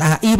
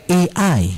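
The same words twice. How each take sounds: First: "A I" read as Indonesian vowels, ah-ee; wrong reading. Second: "A I" as English letter names, ay-eye; correct English reading. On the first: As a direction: say "A I" naively as written, "ah-ee". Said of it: "Tapi itu bacanya bukan A I". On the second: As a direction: pronounce "A I" the English way, "ey-ai". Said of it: "Bacanya A I". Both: Shown as a demonstration.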